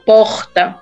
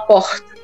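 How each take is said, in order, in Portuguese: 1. Dito com sotaque nordestino, com o R prolongado. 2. Dito com sotaque carioca, com um R parecido com S. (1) "normalmente no Nordeste, eles falam porta. Porta mais puxado" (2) "no Rio de Janeiro ele fala porta. O R tem um S junto"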